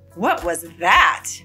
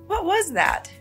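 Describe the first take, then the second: First: The question sounds defensive and challenges a rude remark. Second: The question sounds shocked and surprised at the news. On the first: The speaker is reacting to a rude comment. "or respond defensively to a rude comment" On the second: The speaker is surprised by what they heard. "show shock and surprise"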